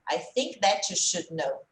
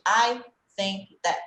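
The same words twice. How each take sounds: First: "that you" glued into one word, slowly modelled; linked words. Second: "I think that" word by word, very slow; separated words. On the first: Teacher shows speech as it really is, "that you" joined. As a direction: run "that you" together with no break. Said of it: "O that com you é grudado". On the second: Teacher shows what to avoid instead, "I think that" chopped apart. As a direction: leave a gap after each word of "I think that". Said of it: "em vez de". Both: Shown as a demonstration.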